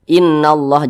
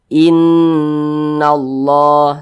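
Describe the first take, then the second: First: The nasal n sound is cut short. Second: The nasal n sound is held long. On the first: The speaker calls it wrong. "jangan dibaca seperti itu. Kurang, kadar gunnahnya kurang" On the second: The speaker calls it right. "kita lebih panjangkan lagi"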